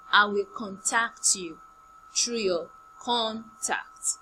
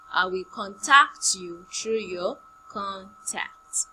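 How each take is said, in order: First: Slow, careful sentence stress on "through"; teaching sentence. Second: Slow model sentence with "through" stressed; repeated teaching sentence. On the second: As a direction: say "contact" as a verb with the stress on "tact". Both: Shown as a demonstration. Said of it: "Contact now is a verb".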